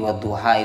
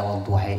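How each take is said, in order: First: The final vowel is a plain open a. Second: The final vowel leans toward an e sound.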